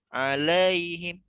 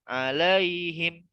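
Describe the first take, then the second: The two takes are said the same way.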